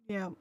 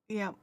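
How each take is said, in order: No difference in how they are said.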